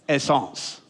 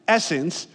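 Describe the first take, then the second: First: It is said with a French pronunciation. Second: It is said with an English pronunciation. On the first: The speaker calls it right. "you'd pronounce it essence" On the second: The speaker calls it wrong. "you don't pronounce it essence"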